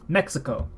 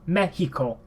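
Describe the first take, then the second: First: It is said with an English pronunciation. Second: It is said with a Spanish pronunciation. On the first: "in English we say" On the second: "In Spanish we say"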